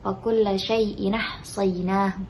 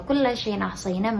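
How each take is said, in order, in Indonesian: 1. Dua kata terakhir tersambung melalui bunyi sengau. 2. Hamzah memisahkan dua kata terakhir. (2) "yang awalnya"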